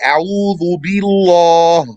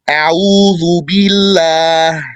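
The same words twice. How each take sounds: First: The L is pronounced heavy and thick. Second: The L is pronounced light and thin. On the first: The speaker calls it wrong. "You don't say" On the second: The speaker calls it right. "You say"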